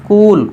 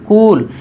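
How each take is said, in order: No difference in how they are said.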